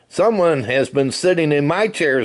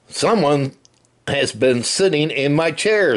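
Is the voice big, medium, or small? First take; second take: small; big. First: It is said in a small, high voice. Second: It is said in a big, deep voice. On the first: The smallest bear is speaking. "said Baby Bear in the wee little voice" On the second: The largest bear is speaking. "said Papa Bear in his great big voice"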